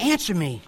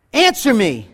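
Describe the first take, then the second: First: Soft echo coming back; cave echo. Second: Firm call into a cave; mock yell. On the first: Acted. Cave repeating the boy's demand, soft echo. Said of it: "And it came back". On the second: Boy demanding a reply, mild mock yell. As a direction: demand it of the hidden boy, mildly. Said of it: "he yelled on".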